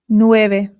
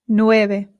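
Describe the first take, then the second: Both takes have the same delivery.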